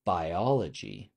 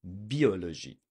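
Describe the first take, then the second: First: Biology said slowly as bye-OL-uh-jee; biology drawn out with English vowels; English pronunciation. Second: Biologie with French i, bee-o-lo-zhee; French pronunciation. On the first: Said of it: "If I say it in English". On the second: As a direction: say Biologie the French way, falling at the end. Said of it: "the I has to be French". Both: Shown as a demonstration.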